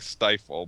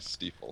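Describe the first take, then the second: First: The first vowel sounds like 'eye'. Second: The first vowel sounds like 'ee'. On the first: The speaker calls it wrong. "looks like stifle" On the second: The speaker calls it right. "you're supposed to say Stiefel"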